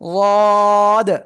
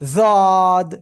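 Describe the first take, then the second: First: The first consonant is a heavy, emphatic d. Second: The first consonant sounds like a z. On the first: The speaker calls it right. "জিহ্বার গোড়ার কিনারা উপরে মাড়ির সাথে লাগিয়ে উচ্চারণ করব" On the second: The speaker calls it wrong. "অনেকেই উচ্চারণ করে এরকম জদ, ... এরকমও বলা যাবে না"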